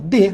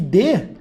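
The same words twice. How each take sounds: First: The word is said weak and unstressed. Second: The word is said with full stress. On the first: It is the preposition. "monossílabo átono, ó, de, fraquinho" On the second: It is the verb. "Agora eu coloco aqui de, eu tenho verbo"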